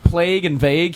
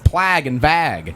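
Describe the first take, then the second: First: The vowels are said with a long 'ay' sound. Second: The vowels are said with a short 'a' sound.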